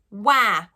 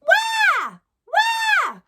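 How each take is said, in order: First: Said in the usual way. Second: Put-on very high, loud baby-cat "wah"; squeaky cat wail. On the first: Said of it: "the sound is wah". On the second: Shown as a demonstration. Teacher showing students the cat or baby sound, squeaky wail. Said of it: "we wanna sound like a cat".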